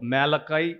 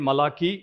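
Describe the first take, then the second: First: The name is pronounced the English way. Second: The name is pronounced the Telugu way. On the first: "ఇంగ్లీష్లో మేలకాయ్ అని పిలుస్తాము" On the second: "తెలుగులో అతన్ని మలాకీ అని పిలుస్తాము"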